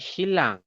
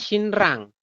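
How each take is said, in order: First: The first syllable ends with an L sound. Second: The first syllable ends with an N sound. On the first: This is how it is actually read. "tapi dibacanya adalah Shilang" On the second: This is how it is written. "Tulisannya Shinrang"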